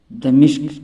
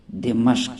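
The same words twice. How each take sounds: First: دمشق said "damishq", a then i; wrong pronunciation. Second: دمشق said "dimashq", i then a; correct pronunciation. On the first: Teacher showing the mistake, دمشق as "damishq". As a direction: say دمشق with i in the second syllable. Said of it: "یہ غلط تلفظ ہے". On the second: Teacher giving the correct name, دمشق as "dimashq". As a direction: say دمشق with a in the second syllable. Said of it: "اس کا صحیح تلفظ ہے". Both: Shown as a demonstration.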